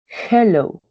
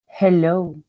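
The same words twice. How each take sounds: First: "Hello" higher and louder, falling at the end; bright model greeting. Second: Said in the usual way. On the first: Shown as a demonstration. Teacher greeting learners as a model word, bright and falling. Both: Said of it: "The vowels, the sounds".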